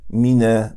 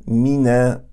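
No difference in how they are said.

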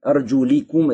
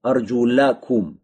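First: The vowel after the l is i. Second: The vowel after the l is a. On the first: The feet are to be wiped. "с кесрой" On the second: The feet are to be washed. "вот с фатхой, мансу, винительным падежа"

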